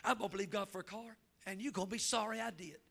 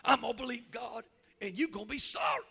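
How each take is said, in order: First: A hint of a stubborn teen; defiant daughter. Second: Louder mock smart-aleck retort; hammed-up defiant daughter. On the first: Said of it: "That's what she told me". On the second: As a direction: throw back a cheeky teen challenge. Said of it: "smart aleck".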